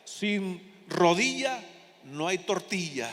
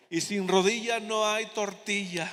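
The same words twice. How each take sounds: First: Very slow, drawn out, chuckling at the end; slow quoted saying. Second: Slow, with "rodilla" stressed and falling at the end; proverb punchline. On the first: Retold or imitated. Preacher quoting a folksy saying to the congregation, slowly drawn out. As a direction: spell out "Sin rodilla no hay tortilla" word by word, slow. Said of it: "otro que decía". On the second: Shown as a demonstration. Preacher finishing the saying for the congregation, slow and stressed. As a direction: lean on "rodilla", let "tortilla" fall. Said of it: "dígale".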